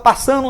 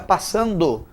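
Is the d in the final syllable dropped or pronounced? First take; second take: dropped; pronounced. First: The d in the final syllable is dropped. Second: The d in the final syllable is clearly pronounced. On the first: The speaker calls it wrong. "Eu vejo alguns repórteres que falam" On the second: The speaker calls it right. "coloca passando"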